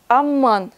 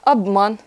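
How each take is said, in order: First: The word is said with a long m sound. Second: The word is said with a b and short m. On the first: This is the dialect form. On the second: This is the standard form.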